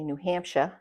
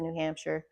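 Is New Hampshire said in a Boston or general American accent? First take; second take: Boston; general American. First: It is said in a Boston accent. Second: It is said in a general American accent.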